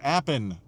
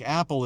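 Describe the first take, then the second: First: The word ends with an N sound. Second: The word ends with an L sound. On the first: "like apple is appin" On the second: "words that end with an L are pronounced as an N"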